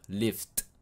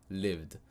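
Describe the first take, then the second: First: The word ends with a t sound. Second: The word ends with a d sound. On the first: The speaker calls it wrong. "On va pas dire lift avec un T" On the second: The speaker calls it right. "ça sera un D à la fin"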